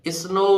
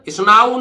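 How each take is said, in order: First: The vowel is said like 'oh'. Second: The vowel is said like 'ow'. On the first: The speaker calls it right. "ओ डब्ल्यू को आउ से नहीं पढ़ेंगे, ओ से पढ़ेंगे" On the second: The speaker calls it wrong. "स्नाऊ नहीं है"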